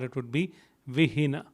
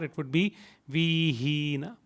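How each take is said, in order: First: Both i vowels are short. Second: Both i vowels are held long. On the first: "None of them had a bar" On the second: "If both of them had a bar"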